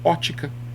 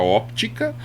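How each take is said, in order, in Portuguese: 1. O som do P antes do T é omitido. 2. O som do P antes do T é pronunciado. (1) "ou simplesmente falo ótica" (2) "eu uso às vezes a pronúncia óptica"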